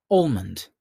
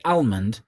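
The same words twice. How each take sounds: First: Said in the usual way. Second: "almond" with a flat a as in "pal"; variant pronunciation. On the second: Shown as a demonstration. Quiz host mocking the other way of saying it, variant pronunciation. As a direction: say "almond" as AL-mund. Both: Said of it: "if you're weird and pronounce it".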